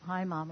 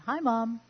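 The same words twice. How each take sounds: First: It sounds tired and flat. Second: It sounds bright and cheerful.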